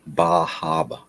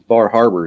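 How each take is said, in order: First: The r sounds in the name are dropped. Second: The r sounds in the name are pronounced. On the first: The speaker calls it right. "say it right" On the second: The speaker calls it wrong. "Excuse me"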